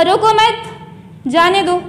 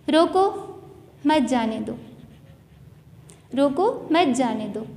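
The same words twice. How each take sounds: First: रोको मत run together, then a break before जाने दो; slow, with मत joined onto रोको, so it means don't stop; pause after मत. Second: रोको set apart with a rise, then मत जाने दो low and soft; soft, measured "रोको, मत जाने दो"; pause after रोको. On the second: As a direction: break after रोको, so it means stop, don't let go. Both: Shown as a demonstration. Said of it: "लहजा चेंज हो जाएगा हमारा".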